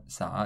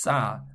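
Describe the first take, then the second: First: Sa with a soft breathy plain s; plain s take. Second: Sa with a tight tense doubled s, like ssa; tense ss take. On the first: Teacher shows the wrong s to learners, soft plain sa. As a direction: say sa lightly, the ordinary s. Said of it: "It's not sa". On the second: Teacher contrasts it for learners, tense ssa. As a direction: press the s hard and tense in sa. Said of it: "It's not sa, it's sa". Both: Shown as a demonstration.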